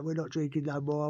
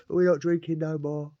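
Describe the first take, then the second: First: Said in the usual way. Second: Slower, louder, higher, each word laid down; huffy final word. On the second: Retold or imitated. To his cellmate, tipping out the hooch, in a huff. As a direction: slam it shut in a huff.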